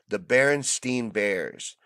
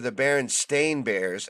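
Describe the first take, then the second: First: The last syllable of the name rhymes with 'mine'. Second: The last syllable of the name rhymes with 'rain'. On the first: This is the name as it is remembered. "it was Berenstein, and I'd bet my life on it" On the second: This is the name as it actually is. "as they're known in this reality"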